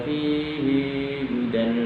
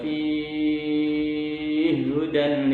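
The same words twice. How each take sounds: First: The final vowel of fihi is lengthened before hudan. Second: The two h sounds merge after a six-count vowel. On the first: "menurut Imam Makki dibaca" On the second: "menurut Imam As-Susi, beliau membaca idgham ... yang tul saja"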